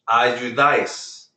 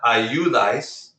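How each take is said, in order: First: The stress falls on the last syllable. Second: The stress falls on the second-to-last syllable. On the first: The speaker calls it right. "stress that letter instead of the natural stress letter" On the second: The speaker calls it wrong. "this word is not ayudais"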